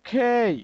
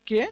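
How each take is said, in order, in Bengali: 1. k ধ্বনিতে নিঃশ্বাসের একটি জোরালো ফুঁ থাকে। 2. k ধ্বনিটি সাধারণ, কোনো নিঃশ্বাস ছাড়া। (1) "প্রপার বা অ্যাপ্রোপ্রিয়েট প্রোনাউন্সিয়েশন ... খেই" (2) "বাংলাদেশে আমরা সাধারণত বলে থাকি কে"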